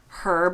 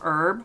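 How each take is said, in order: First: The word is said with a British pronunciation. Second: The word is said with an American pronunciation. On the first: "I think I say herb now" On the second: "instead of herb"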